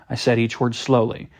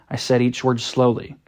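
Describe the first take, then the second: No difference in how they are said.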